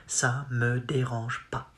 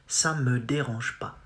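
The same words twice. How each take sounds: Both takes have the same delivery.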